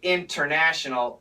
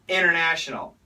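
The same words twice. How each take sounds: First: The T after the N is clearly pronounced. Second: The T after the N is dropped. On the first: The speaker calls it wrong. "We don't say international" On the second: The speaker calls it right. "We say international. The N cancels the T"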